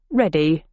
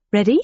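First: "Ready," spoken with a falling tune; answering ready. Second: "Ready?" asked with a rising tune; questioning ready. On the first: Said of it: "said Millen". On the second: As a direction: lift the end of "Ready?" as a question. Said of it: "I asked". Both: Acted.

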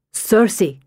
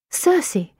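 First: Said in the usual way. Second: Circe rising high in surprise; surprised. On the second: Acted. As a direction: echo Circe as a startled question. She echoes the strange name.

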